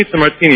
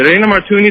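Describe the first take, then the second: First: Said in the usual way. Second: It ain't a "martini" with martini said "mar-tooni", pitched up; mocking her word. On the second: Bartender mimics the lady's wrong "martini". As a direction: parrot her "mar-tooni" back at her in a raised voice. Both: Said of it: "it's bartender".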